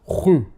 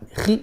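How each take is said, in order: First: The syllable is very heavy and rounded toward u. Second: The syllable is light and flat, without heaviness. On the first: "But you don't do this. That's too much" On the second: "we don't say khi as in flat. Khi, no"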